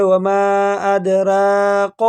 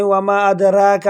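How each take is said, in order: First: ادراک slowly with the final ک thickened; mistaken heavy kaf. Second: ادراک with a light, thin را; mistaken thin ra. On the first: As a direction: bend the last کاف wrongly. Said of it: "بعض لوگ ایسے بھی پڑھ لے". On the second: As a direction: say را thin, wrongly. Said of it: "را کو باریک پڑھ لیتے ہیں". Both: Shown as a demonstration.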